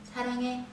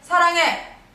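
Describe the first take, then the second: First: It is said very softly and weakly. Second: It is said loudly with strong force. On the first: "일 단계를 제일 약하다고 생각하고요" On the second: "사 단계"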